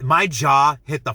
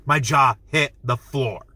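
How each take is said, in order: First: Said in the usual way. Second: "My jaw hit the floor" drawn out slowly, each word weighted; slow emphatic. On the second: Real, not acted. Stretch out "My jaw hit the floor" for emphasis. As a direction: reviewer stressing shock at the scene, slow and emphatic. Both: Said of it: "I was in shock".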